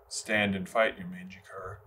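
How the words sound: It is said flatly, with a neutral delivery.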